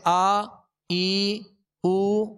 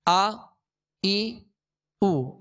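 First: The vowels are drawn out long. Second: The vowels are short and clipped. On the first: These have become long vowel letters. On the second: These are short vowel marks.

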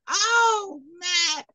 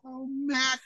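First: The voice is pitched higher, like a little girl. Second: The voice is pitched lower, like an older woman. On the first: The speaker is a little girl. "I had to do the voice higher because she's a little girl" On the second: The speaker is an older woman. "I got to play both the old storyteller and the young storyteller"

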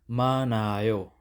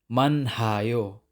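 First: No h sound is heard after the n. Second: An h sound is heard after the n. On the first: The speaker calls it right. "Dapat manayo" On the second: The speaker calls it wrong. "Hindi manhayo. Mali yun"

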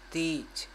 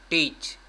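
First: The first T is soft and light. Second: The first T is hard and strong. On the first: "this T is just like Brazilian people say ... They speak softly" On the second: "this is just like native English sound"

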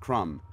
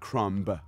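First: The word ends without any B sound. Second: The word ends with an audible B sound. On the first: The speaker calls it right. "It's a crumb" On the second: The speaker calls it wrong. "You don't say the B. It's not a crumb"

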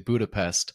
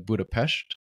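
First: The word ends with an 'st' sound. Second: The word ends with an 'sht' sound. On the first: This is how most English speakers say it. "most people here would probably say, myself included, would say Budapest" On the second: This is how local people say it. "local people would say something similar to Budapest"

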